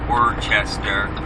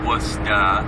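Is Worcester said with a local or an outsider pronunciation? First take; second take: outsider; local. First: It is said with an outsider's pronunciation. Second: It is said with a local Massachusetts pronunciation. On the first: This is how people from elsewhere say it. The speaker calls it wrong. "I'm sure those abroad would pronounce it" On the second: This is how people from the area say it. The speaker calls it right. "if you're from here"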